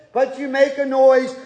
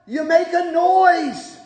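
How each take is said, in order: First: Said in the usual way. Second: "noise" drawn out slowly and hit hard; stress on noise. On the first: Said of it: "Sometimes it doesn't sound the greatest". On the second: Shown as a demonstration. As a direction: lean into the word "noise", slow. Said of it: "the psalmist says".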